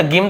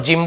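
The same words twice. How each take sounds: First: "गिम" starting with hard g; hard G misreading. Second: "जिम" starting with a j sound; soft G reading. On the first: Teacher denying this reading of gym, "गिम" with hard g. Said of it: "गिम थोड़ी बोल रहा हूँ". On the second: Teacher confirming the reading of gym, "जिम" with j. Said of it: "जिम बोल रहा हूँ". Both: Shown as a demonstration.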